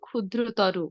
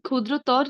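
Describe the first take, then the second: First: The word ends with an 'o' vowel. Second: The word ends in a bare consonant. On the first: The speaker calls it right. "ওকার দিয়ে উচ্চারণ করব" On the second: The speaker calls it wrong. "না বলে"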